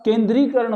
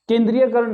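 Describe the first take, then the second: First: केंद्रीकरण said firmly with a long ई and no य, falling; teacher confirming the correct word; correct form. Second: केंद्रीयकरण said as the incorrect form, with a य after the ई, rising; teacher showing the common error; wrong form. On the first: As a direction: land केंद्रीकरण as the right answer, falling. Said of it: "ये शुद्ध है". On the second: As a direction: mark केंद्रीयकरण as the mistake, rising at the end. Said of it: "नहीं होता". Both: Shown as a demonstration.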